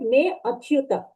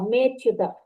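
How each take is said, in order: First: An extra 'a' vowel is heard between them. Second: The words merge with no vowel between them. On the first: The speaker calls it wrong. "Before you recited me achyuta" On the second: The speaker calls it right. "we don't recite uh, vowels"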